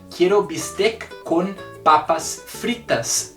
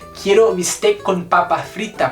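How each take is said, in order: First: The final s sounds are pronounced. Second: The final s sounds are dropped. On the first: This is the full plural form. "Eu poderia falar" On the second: This is a casual spoken form. "por que que às vezes eu não falo o S?"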